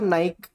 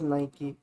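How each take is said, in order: First: The word ends in a consonant sound. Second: The word ends in an ee vowel sound. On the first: This is how most people used to say it. The speaker calls it wrong. "सब नाइक करते थे" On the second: This is the hoped-for correct form. The speaker calls it right. "I hope this it is नाइकी"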